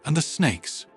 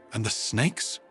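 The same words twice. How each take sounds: First: Mildly nervous question, pitched higher; hint of nervousness. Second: Mildly nervous question with rising end; hint of nervousness. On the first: Diplomat asking Sarah about the snakes, mildly nervous. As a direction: ask with a touch of unease. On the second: Diplomat asking Sarah about snakes, faintly nervous. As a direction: lift the end, faintly uneasy. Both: A narrator's reading. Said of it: "a hint of nervousness in its voice".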